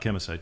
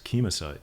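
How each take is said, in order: First: The beginning sounds like the word 'chemical'. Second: The beginning does not sound like 'chemical'. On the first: The speaker calls it wrong. "not chemicide ... it sounded too much like chemical" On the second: The speaker calls it right. "it's it's chemicide"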